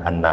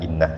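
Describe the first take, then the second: First: The word begins with an a vowel. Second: The word begins with an i vowel. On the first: "hamzahnya dibaca dengan menggunakan harakat fathah" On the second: "dengan mengharkatkan hamzah itu dengan menggunakan harakat kasroh"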